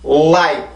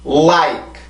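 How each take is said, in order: The two takes are said the same way.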